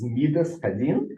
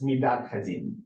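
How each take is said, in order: First: It is read in Ashkenazi Hebrew pronunciation. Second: It is read in modern Hebrew pronunciation. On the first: "in Yiddish, you would read this as" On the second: "if you were reading it in modern Hebrew, you would read this"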